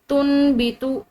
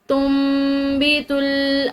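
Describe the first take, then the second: First: An n sound is said before the b. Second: An m sound is said before the b. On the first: The speaker calls it wrong. "इस तरह नहीं पढ़ा जाएगा" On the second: The speaker calls it right. "बल्कि इस नून की बजाय मीम पड़ी जाएगी"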